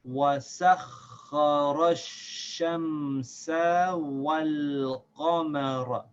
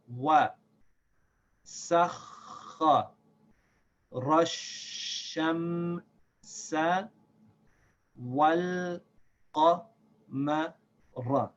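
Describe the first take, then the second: First: It is read at a moderately quick pace. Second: It is read slowly, syllable by syllable. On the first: "Again, a little faster" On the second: "We'll read slowly at first"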